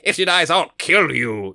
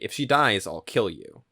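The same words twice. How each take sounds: First: It is said loudly with dramatic gusto. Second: It is said quietly and understated.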